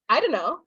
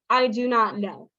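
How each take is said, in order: First: The words are run together and reduced. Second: Every word is said fully and separately. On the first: The speaker is more casual. "we're even lazier" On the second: The speaker is formal and proper. "if you are very formal, if you are a gentleman, someone who speaks very properly"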